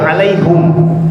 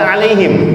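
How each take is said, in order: First: The last syllable has the vowel u. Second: The last syllable has the vowel i. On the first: This is how this reading has it. "kalau ini jadi alaihum" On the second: This is how the earlier reading has it. "tadi kan alaihim"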